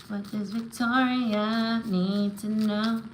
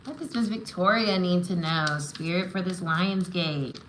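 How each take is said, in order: First: Slow, held-note invocation; intoned card-reader question. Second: Said in the usual way. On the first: Real, not acted. Reader asking spirit for Victoria's message, slowly intoned. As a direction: stretch each word out while waiting for the answer. Repeats question while drawing cards.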